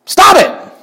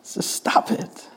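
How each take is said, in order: First: Shouted order. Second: Just stop it whispered slowly. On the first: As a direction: Stop it shouted very high and loud. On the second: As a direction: breathe it softly, almost to yourself. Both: Shown as a demonstration. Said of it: "it just doesn't work".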